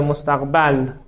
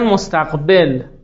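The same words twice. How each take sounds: First: The vowel before the final l is 'a'. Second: The vowel before the final l is 'i'. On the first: It names time as the thing that is approached. "دومی مشهورتر مستقبل" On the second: It names time as the thing that comes toward us. "فلاسفه که علمو میگن مستقبل"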